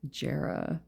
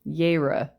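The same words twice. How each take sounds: First: It begins with a hard J sound. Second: It begins with a Y sound. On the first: The speaker calls it wrong. "I already missed it" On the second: The speaker calls it right. "Because the J's make a yes sound"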